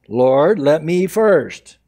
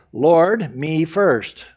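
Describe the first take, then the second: First: Slow, loud stress on first; drawn-out pleading lord let me first. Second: Quick, plain lord me first; first take of the selfish plea; self-centred lord me first. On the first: Preacher mocking the selfish plea, drawn-out stress on first. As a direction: plead the word first, slowly. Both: Shown as a demonstration. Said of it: "never come to Jesus and say".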